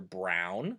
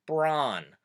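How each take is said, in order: First: Said in the usual way. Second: "bron" with an open ah instead of the ow glide; Pennsylvania Dutch vowel. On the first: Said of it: "the color brown". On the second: Shown as a demonstration. Showing viewers the accent, "bron" with a single open vowel. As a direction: say "bron" for the color brown. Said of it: "might be said as".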